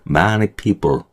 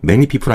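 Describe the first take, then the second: First: It is said forcefully, with strong emphasis. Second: It is said weakly, without extra force. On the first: The speaker calls it right. "세게 좀 읽어주셔야 돼요" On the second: The speaker calls it wrong. "아니고요"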